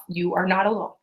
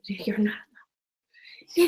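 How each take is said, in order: First: Scripted sales-call delivery; rushed scripted telemarketer. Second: Slow, soft and sincere; mean it, slow it right down. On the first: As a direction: read it like a canned phone pitch. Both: Shown as a demonstration. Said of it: "that sounded like a telemarketer".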